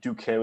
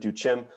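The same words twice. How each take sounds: First: The C is said as a hard k sound. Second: The C is said as a soft ch sound. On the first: The speaker calls it right. "pronouncing C's as hard C's is preferred" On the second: The speaker calls it wrong. "as opposed to"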